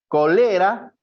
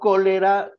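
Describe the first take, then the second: First: The stress is on the second syllable. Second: The stress is on the first syllable. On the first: "Sería grave" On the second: "como palabra esdrújula"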